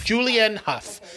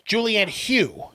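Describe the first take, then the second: First: The surname ends in a short 'uff' sound. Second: The surname ends in an 'ew' vowel. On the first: "There you go"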